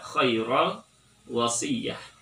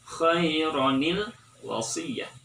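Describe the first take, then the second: First: No linking nasal syllable joins the two words. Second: A linking nasal syllable joins the two words. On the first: The speaker calls it wrong. "Tidak dibaca" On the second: The speaker calls it right. "Maka cara bacanya adalah"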